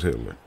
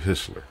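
First: The middle consonant is a 't' sound. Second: The middle consonant is an 's' sound. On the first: This is the usual form of the name. "And that was Hitler" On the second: This is how someone else said the name. "He pronounced it Hissler"

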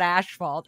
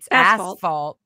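First: The first syllable sounds like 'ash'. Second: The first syllable sounds like 'ass'. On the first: The speaker calls it wrong. "not asphalt. I thought it was asphalt, like because the color of the pavement looks ashy" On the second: The speaker calls it right. "it's asphalt"

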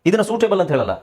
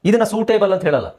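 The two takes are said the same way.

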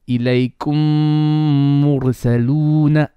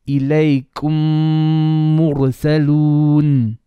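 First: The phrase ends with an added final vowel. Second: The phrase stops on the final consonant. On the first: The reciter continues to the next word. "otherwise it would be" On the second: The reciter stops at this word. "Because I'm pausing"

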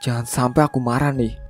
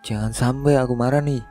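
First: It is said in an annoyed, warning tone. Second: It is said in a teasing, mocking tone. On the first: "Emosi yang sejak tadi ku bendung rasanya sebentar lagi akan meledak" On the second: "dengan nada yang mengejek"

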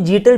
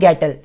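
First: The name begins with a J sound. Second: The name begins with a hard G sound. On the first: "कुछ लोग इसको जीटल भी pronounce करते हैं" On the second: "पर गैटल ही pronounce कर रहा हूं मैं इसको"

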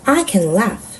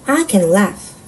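Both takes have the same delivery.

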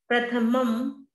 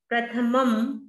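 The two takes are said the same way.

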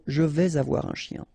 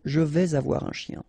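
First: A z sound joins vais to avoir. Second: A z sound joins vais to avoir.

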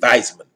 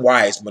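First: The name begins with a V sound. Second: The name begins with a W sound.

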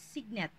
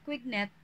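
First: The name begins with an s sound. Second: The name begins with a k sound. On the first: "so it's signet" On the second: "some of us pronounce it as quignet"

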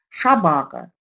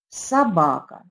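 First: The word begins with an 'sh' sound. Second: The word begins with an 's' sound. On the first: The speaker calls it wrong. "Ребенок говорит неправильно" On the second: The speaker calls it right. "правильно произнеся его"

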